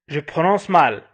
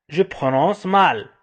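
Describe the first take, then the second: No difference in how they are said.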